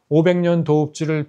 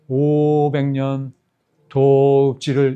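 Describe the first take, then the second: First: The first syllable is said short, as usual. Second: The first syllable is drawn out long. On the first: "가 아니라" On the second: "오를 장으로 읽으면 되는 거예요"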